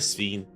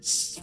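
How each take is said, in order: First: It is said in a flat, plain tone. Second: It is said with an excited gasp.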